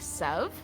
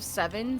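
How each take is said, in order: First: The number is clipped to one short syllable. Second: The number is said with two full syllables. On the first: "say sev" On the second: "instead of seven"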